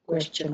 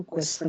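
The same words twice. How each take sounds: First: "क्वेश्चन" said kwesh-chan; correct sh-ch sound. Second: "क्वेश्चन" mispronounced as kwes-san; wrong s sound. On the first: Teacher giving the right question, sh-ch pronunciation. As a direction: say "क्वेश्चन" with a clear ch. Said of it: "क्वेश्चन बोलते हैं". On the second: Teacher showing students the mistake, s-for-ch mispronunciation. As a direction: say "क्वेश्चन" with plain s, no ch. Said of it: "क्वेश्चन नहीं बोलते". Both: Shown as a demonstration.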